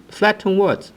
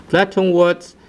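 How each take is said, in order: Both takes have the same delivery.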